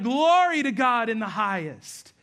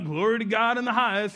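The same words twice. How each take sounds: First: It is said in an excited, joyful way. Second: It is said in a flat, unexcited way.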